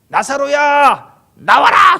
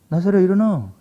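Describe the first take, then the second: First: It is shouted in a loud voice. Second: It is said in a small, quiet voice.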